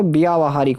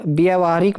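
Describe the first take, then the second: First: व्यावहारिक with long byaa; corrected pronunciation. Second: व्यवहारिक with short first vowel; wrong pronunciation. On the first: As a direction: stretch the first aa in व्यावहारिक. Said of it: "आ लगेगा यहाँ". (व्यावहारिक में 'ब्या' लंबा बोलें) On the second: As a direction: say व्यवहारिक as bya-va-haarik. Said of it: "में बात कर लें". (व्यवहारिक में 'व्य' छोटा बोलें) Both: Shown as a demonstration.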